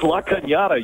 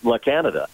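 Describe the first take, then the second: First: The middle consonant is a 'ny' sound. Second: The middle consonant is a plain 'n' sound. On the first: The speaker calls it right. "It's La Cañada, you idiot" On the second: The speaker calls it wrong. "It's not La Canada"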